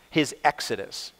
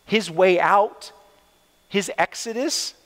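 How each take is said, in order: First: Said in the usual way. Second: Preacher stretching His way out, rising on exodus; slow emphatic his exodus. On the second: Shown as a demonstration. To the congregation, slow stress on his exodus.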